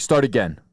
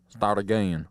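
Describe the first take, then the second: First: Said in the usual way. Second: "again" drawn out in a low Southern drawl; lower, put-on Southern accent. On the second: Customer demanding a new sandwich, low Southern drawl. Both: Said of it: "why did he become a Southerner".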